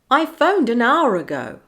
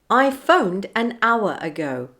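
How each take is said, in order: First: An R sound joins the words smoothly together. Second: The words are kept apart with no R link. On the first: "then I'll say it with the linking" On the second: "I'll say a phrase without linking"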